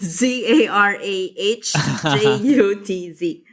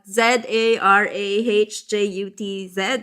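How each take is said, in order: First: The letters are spelled in an American accent. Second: The letters are spelled in an Australian accent.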